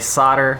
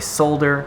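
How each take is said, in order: First: It is said the American way. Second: It is said the British way. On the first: "Americans say solder" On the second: "British people say solder"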